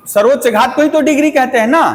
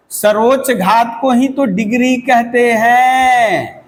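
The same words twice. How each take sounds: First: Fast, higher-pitched reminder seeking agreement; quick check question. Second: Measured, deliberate repeat with a long-held "हैं" falling at the end. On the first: Real, not acted. Teacher checking that students recall the definition, quick and rising. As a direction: rattle off "सर्वोच्च घात को ही तो degree कहते हैं ना", higher, rising on "ना". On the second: Shown as a demonstration. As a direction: stretch "सर्वोच्च घात को ही तो डिग्री कहते हैं" out, holding the last word long. Same definition repeated slowly for emphasis.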